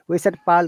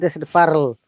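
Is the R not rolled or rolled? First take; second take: not rolled; rolled. First: The R is soft and not rolled. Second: The R is strongly rolled. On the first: "We said" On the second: "they said; rolling R"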